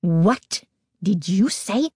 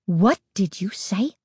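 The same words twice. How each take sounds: First: Slow, deliberate indignant demand; slow, outraged question; growing outrage. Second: Controlled, indignant question; understated growing outrage; tight with outrage. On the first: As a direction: space the words out in tight outrage. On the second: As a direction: demand it with tightly held anger. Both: A narrator's reading. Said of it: "her voice tight with growing outrage".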